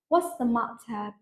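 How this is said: A British accent with a clear, crisp T. "something like the second one, what you would hear like in a Bridgerton movie, like it's almost like singing"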